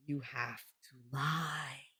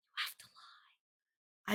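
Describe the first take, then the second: First: Soft, slow and low; hushed. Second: Slow breathy whisper. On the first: Confiding to viewers that they must lie, slow and soft. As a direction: drop the voice and draw it out. Repeated advice, second whispered. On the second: Confiding to viewers that they must lie, slow whisper. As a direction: whisper it like a secret. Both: Shown as a demonstration.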